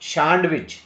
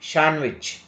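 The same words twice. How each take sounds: First: The D sound is pronounced. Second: The D sound is silent. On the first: The speaker calls it wrong. "Don't say" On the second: The speaker calls it right. "D is not pronounced"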